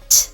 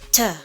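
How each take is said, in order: First: The consonant is said alone with no vowel. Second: The consonant is followed by an added uh. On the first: The speaker calls it right. "Just pronounce them as pure sounds" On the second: The speaker calls it wrong.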